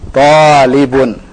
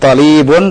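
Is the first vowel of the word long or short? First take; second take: long; short. First: The first vowel is long. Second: The first vowel is short. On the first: The speaker calls it right. "tapi talibun" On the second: The speaker calls it wrong. "Bukan talibun"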